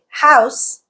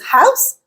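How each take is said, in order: First: The pitch falls at the end. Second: The pitch rises at the end. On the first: It is a statement. "like in a statement" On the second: It is a question. "like in a question"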